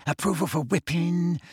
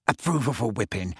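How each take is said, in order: First: Repeated higher, savouring the words; higher gleeful repeat. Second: Low, gleeful muttering to himself; feverish mutter. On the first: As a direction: lift the repeat with glee. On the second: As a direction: mutter it low, relishing each word. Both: A narrator's reading. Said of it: "talking to himself feverishly".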